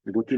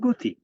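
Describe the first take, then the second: First: "গতি" with an open অ after গ; first vowel of "গতি" left as open aw; spelling pronunciation. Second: "গতি" with a closed o/u after গ; first vowel of "গতি" raised from aw to o; corrected pronunciation. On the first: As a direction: say "গতি" as written, like gaw-ti. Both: Shown as a demonstration. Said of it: "গতি না হয়ে".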